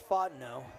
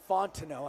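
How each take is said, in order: First: The T sound in the name is silent. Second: The T sound in the name is pronounced. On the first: The speaker calls it wrong. "I don't know why I keep leaving the T silent" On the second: The speaker calls it right. "It's actually Fontenot"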